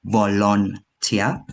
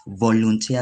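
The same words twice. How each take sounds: First: "volunteer" in the common East African way; East African pronunciation. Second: "volunteer" said the standard way; correct pronunciation. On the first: Retold or imitated. Grammarian showing the error she heard, East African volunteer. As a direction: imitate an East African "volunteer", syllables set apart. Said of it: "I heard you say volunteer, which is a common phrase, especially in East Africa".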